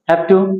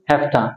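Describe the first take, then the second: First: Have to is said in full. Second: Have to is reduced to hafta.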